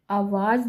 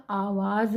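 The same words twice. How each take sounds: First: आवाज़ begun with a short अ, as avaaz; wrong short vowel. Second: आवाज़ slowly, with a long opening आ; correct long vowel. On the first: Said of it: "आवाज़ नहीं होता". (आवाज़ का पहला स्वर छोटा 'अ') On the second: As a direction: stretch the first vowel of आवाज़. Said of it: "आवाज़ होता है". (आवाज़ का पहला 'आ' लंबा) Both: Shown as a demonstration.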